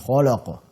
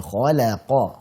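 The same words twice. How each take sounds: First: The 'la' sound is thick and heavy. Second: The 'la' sound is light and thin. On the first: The speaker calls it wrong. "jangan khalaqa" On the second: The speaker calls it right. "la tipiskan"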